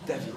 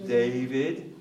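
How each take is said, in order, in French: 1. Le nom se prononce à la française. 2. Le nom se prononce à l'anglaise. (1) "En français, c'est David" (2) "En anglais"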